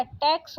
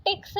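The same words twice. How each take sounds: First: Said in the usual way. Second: टैक्स said "teks", closed e; wrong vowel. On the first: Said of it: "टैक्स होता है". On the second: Shown as a demonstration. Teacher rejecting a spelling, टैक्स with plain e. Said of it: "टैक्स नहीं होता".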